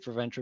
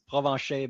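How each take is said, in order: First: The name is pronounced the English way. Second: The name is pronounced the French way. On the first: This is an acceptable simplified form. "but you can say" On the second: This is the name's true form. "real, real pronunciation is"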